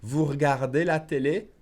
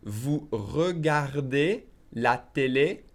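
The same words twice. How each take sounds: First: "regardez" squeezed to "r'gardez", rising end; dropped E. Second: Very slow French, "regardez" with every syllable sounded; very slow model. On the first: Teacher shows the faster version, "regardez" as "r'gardez". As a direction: skip the first E of "regardez". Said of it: "I would drop the E". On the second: Teacher models the question for learners, very slowly. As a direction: draw out each word, rising at the end. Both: Shown as a demonstration.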